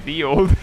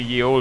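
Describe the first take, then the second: First: The first word begins with a th sound. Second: The first word begins with a y sound. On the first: The speaker calls it right. "you should say the old" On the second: The speaker calls it wrong. "you shouldn't say ye old"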